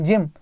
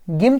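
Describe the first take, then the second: First: जिम with G sounded as J; जिम, the G softened to a j; soft G pronunciation. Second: गिम with a hard g, as in "go"; गिम, G wrongly kept hard. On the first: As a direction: say जिम with an initial j sound, as in "jam". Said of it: "गिम थोड़ी बोलते हैं". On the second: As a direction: mispronounce gym as गिम, hard G first. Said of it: "थोड़ी बोलते हैं". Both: Shown as a demonstration.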